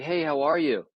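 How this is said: It sounds calm, friendly and pleasant in tone.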